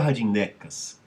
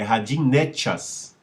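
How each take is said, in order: First: The last consonant is a plain k sound. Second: The last consonant is a ch sound. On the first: The speaker calls it wrong. "Radinecas não é Radinecas" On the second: The speaker calls it right. "É Radinechas"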